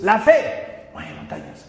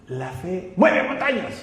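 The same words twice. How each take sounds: First: "La fe" punched out slowly, "mueve montañas" dropped; emphatic, drawn-out "La fe", then a hushed "mueve montañas"; stress on LA FE. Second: "La fe" held back, "mueve montañas" punched out; soft "La fe", then emphatic "mueve montañas"; stress on MUEVE MONTAÑAS. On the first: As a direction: hit "La fe" hard, let "mueve montañas" fall away. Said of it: "el énfasis es creer". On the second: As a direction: read it leaning hard on "mueve montañas". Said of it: "ellos leen así el versículo". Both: Shown as a demonstration.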